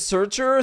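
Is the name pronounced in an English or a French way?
English. The name is said with English-style pronunciation. "don't ask me to pronounce the name in English"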